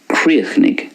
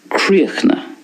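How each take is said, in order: First: It is said in a Munster Irish accent. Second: It is said in a Connacht Irish accent. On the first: "I'm pronouncing it the way it's pronounced in Munster" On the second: "In Connacht then, we have a more of a silence at the end"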